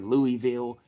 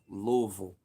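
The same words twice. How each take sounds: First: It is said the way outsiders pronounce it. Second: It is said the way locals pronounce it. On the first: The speaker is not from the city. The speaker calls it wrong. "when they say Louis, Louisville or Louisville" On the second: The speaker is from or has lived in the city. The speaker calls it right. "it's Louisville. That's how you know"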